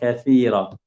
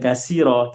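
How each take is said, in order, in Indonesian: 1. Konsonan di tengah itu bunyi 'th'. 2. Konsonan di tengah itu bunyi 's' biasa. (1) "huruf sa" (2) "Bukan kasira"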